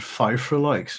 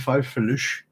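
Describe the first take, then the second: First: The word ends with a 'ks' sound. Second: The word ends with an 'sh' sound. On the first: The speaker calls it wrong. "I would be pronouncing it wrong" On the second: The speaker calls it right. "it should be Fifreluche"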